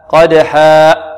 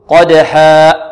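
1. ينتهي المدّ الأخير بانغلاق في الحلق. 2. ينتهي المدّ الأخير بانغلاق في الحلق.

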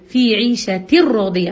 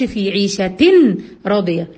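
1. النون تُدغم في الراء تمامًا، لا غنة. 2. يُسمع صوت نون قبل الراء.

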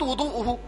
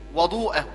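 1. الحركة الأولى هي صوت 'u' المدوّر. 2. الحركة الأولى هي صوت 'a' المفتوح. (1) "لو قلت وضوءه، وضوءه خطأ" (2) "لأن كلمة وضوء بالفتح تكون إيه؟ الماء الذي يتوضأ به"

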